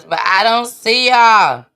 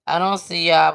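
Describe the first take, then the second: First: Much louder call to the viewers. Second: Said in the usual way. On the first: Real, not acted. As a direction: call out over the glitch. Stream glitch, calling to viewers.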